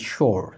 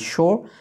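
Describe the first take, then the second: First: It is said American style, ending in an r sound. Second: It is said British style, with no r sound. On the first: "American English follow করে থাকেন তাহলে বলবেন sure অর্থাৎ আর এর উচ্চারণ করবেন" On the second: "British English follow করে থাকেন তাহলে আপনি বলবেন sure আর এর উচ্চারণটা করবেন না"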